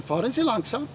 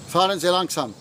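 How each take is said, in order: First: Fahren Sie langsam? with a rise on Sie; question tune. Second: Fahren Sie langsam. falling, stress on Fahren; command tune. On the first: Teacher asking the class a question, rising tune. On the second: Teacher giving the class an order, falling tune. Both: Shown as a demonstration. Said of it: "same as the question".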